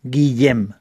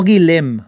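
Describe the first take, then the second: First: Guillem with ll as a y-like sound, "gui-yem"; lower, falling Guillem, said "guiyem"; correct Valencian Guillem. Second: Guilhem with a plain l, "gui-lem"; wrong Guillem. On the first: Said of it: "en valenciano es Guillem". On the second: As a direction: say Guilhem with a simple L in the middle. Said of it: "No Guilhem". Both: Shown as a demonstration.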